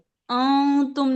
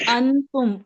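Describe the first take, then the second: First: The n is hidden as a nasal hum. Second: The n is pronounced fully with the tongue. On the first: The speaker calls it right. "अं तुम नहीं आई" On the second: The speaker calls it wrong. "पूरी अन की आवाज आई"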